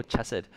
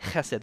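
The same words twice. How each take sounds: First: Chesed with a plain English ch as in church; wrong pronunciation. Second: Chesed with a throaty, rasped ch at the start; correct pronunciation. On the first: Retold or imitated. Pastor imitating people mispronouncing Hebrew, English ch. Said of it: "but people say". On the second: Shown as a demonstration. Pastor showing the right Hebrew sound, guttural ch. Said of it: "That's how you pronounce it".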